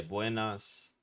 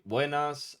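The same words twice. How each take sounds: First: Said in the usual way. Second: "buenas" higher and louder, wé-nas; a friendly, louder "buenas"; buenas said brightly. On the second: Shown as a demonstration. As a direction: lift "buenas" up and out as a cheerful hello. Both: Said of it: "I like say".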